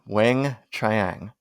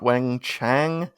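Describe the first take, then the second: First: The second name has a 'chee-ang' sound. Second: The second name has a plain 'chang' sound. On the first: The speaker calls it right. "not Wang Chang" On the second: The speaker calls it wrong. "not Wang Chang"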